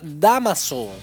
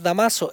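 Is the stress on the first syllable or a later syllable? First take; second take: first; later. First: The stress falls on the first syllable. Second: The stress falls on a later syllable. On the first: The speaker calls it right. "El nombre es Damaso. Tiene el tilde en la primera palabra esdrújula" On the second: The speaker calls it wrong. "no es Damaso"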